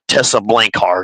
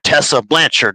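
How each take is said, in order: First: The surname ends with a 'heart' sound. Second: The surname ends with a 'chard' sound. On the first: The speaker calls it wrong. "not Tessa Blankheart" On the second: The speaker calls it right.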